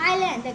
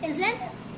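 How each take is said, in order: First: The S in the word is silent. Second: The S in the word is sounded. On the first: The speaker calls it right. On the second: The speaker calls it wrong.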